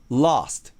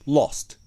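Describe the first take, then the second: First: An American accent with a longer vowel. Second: A British accent with a shorter vowel. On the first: "アメリカ英語で読みたいなら、実際の音声はちょっと長めにして" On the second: "イギリス英語で読みたいなら、ちょっと口を縦にして、短めにして"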